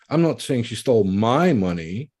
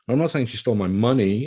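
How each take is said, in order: First: The word my is stressed. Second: The word money is stressed. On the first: It was someone else's money that was taken. "it was someone else's money" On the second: It was something other than money that was taken. "She didn't really take money"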